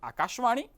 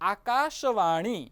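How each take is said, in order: First: The vowel after the sh is dropped. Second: The vowel after the sh is sounded. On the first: The speaker calls it wrong. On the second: The speaker calls it right.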